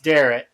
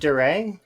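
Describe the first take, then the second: First: The name ends with an audible T sound. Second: The name ends without any T sound. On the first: "I bet you a lot of folks say that it's Darret" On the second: "Like you don't pronounce the T's"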